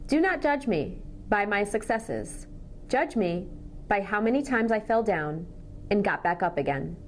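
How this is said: Pauses fall naturally between meaningful phrases. The speaker calls it right. "I used appropriate thought groups"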